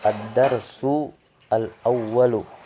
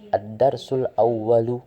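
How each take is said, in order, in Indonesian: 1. Kedua kata itu diucapkan terpisah. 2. Kedua kata itu diucapkan menyambung. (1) "Itu kalau dibaca terpisah" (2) "Kalau dibaca ya secara langsung"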